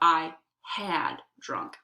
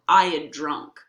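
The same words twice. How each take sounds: First: The word had is pronounced fully and clearly. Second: The word had is reduced to a short d sound. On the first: "instead of" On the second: "you reduce the had so that it sounds just like a duh"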